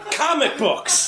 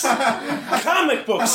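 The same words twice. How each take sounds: First: High-pitched laugh through comic books; laughing punchline. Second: Comic books drawn out slow and high through laughter; slow laughing repeat. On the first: Comic laughs at the scam caller's fake name, laughing. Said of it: "repeated punchline, first take". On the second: Comic repeats the punchline slowly to the crowd, laughing. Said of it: "repeated punchline, slowed". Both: Real, not acted.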